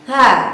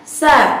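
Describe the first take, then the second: First: The consonant is a soft breathy th sound. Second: The consonant is a hissing s sound. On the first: The speaker calls it right. "tanpa disertai dengan desis" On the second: The speaker calls it wrong. "pelafalan ta itu terdengar seperti suara sin"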